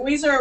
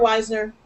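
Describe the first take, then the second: First: First vowel of Wiesner as in "wheeze"; WEEZ-ner pronunciation. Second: First vowel of Weisner as in "wise"; WIZE-ner pronunciation. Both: Shown as a demonstration. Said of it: "Is it Wiesner or Weisner?".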